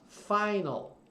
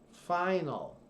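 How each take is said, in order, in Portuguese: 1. A tônica está na primeira sílaba. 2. A tônica está na primeira sílaba.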